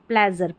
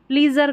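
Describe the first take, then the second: First: The first vowel sounds like 'e' in bed. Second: The first vowel sounds like 'ee' in see. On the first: The speaker calls it right. "प्लेजर का मतलब होता है आनंद" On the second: The speaker calls it wrong. "प्लीजर का नहीं होता"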